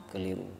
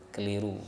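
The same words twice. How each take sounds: No difference in how they are said.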